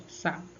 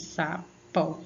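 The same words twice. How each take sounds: First: Said in the usual way. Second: "Sapó" broken into sa, pó; two separate syllables. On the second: Shown as a demonstration. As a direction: give "Sapó" one beat per syllable. ("Sapó" separado em sa-pó) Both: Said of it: "Você abriu a boca duas vezes".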